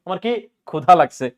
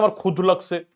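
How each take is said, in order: First: ক্ষুধা with a full final "aa"; correct-form demo. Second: ক্ষুধ cut short without the final "a"; wrong-form demo. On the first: Teacher shows what we really say, ক্ষুধা with final aa. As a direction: give ক্ষুধা its open aa ending. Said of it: "খুদ বলি না ক্ষুধা বলি". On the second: Teacher shows what nobody ever says, ক্ষুধ without its final vowel. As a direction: say ক্ষুধ with no aa ending. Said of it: "কেউ কোনদিন বলছি না". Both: Shown as a demonstration.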